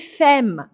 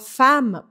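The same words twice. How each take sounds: First: The vowel is closed, read as spelled. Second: The vowel is open, as actually spoken. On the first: This is how the word is written. "Se escreve femme" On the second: This is how the word is actually spoken. "fazem com que eu abra o som anterior"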